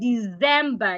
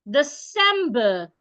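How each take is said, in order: First: The middle consonant is a Z sound. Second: The middle consonant is an S sound. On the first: The speaker calls it wrong. "Don't say December. It's not dirty December. The C there should not be sounded like a Z" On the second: The speaker calls it right. "The C should be sounded like a S"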